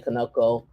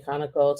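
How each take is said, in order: First: Conoco said kuh-NO-koh; second-syllable pronunciation. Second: Conoco said KAH-nuh-koh; first-syllable pronunciation. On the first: Noting how other people say the company name, kuh-NO-koh Conoco. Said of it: "some people say Conoco". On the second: Noting how some people say the company name, KAH-nuh-koh Conoco. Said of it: "Some people say Conoco". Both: Shown as a demonstration.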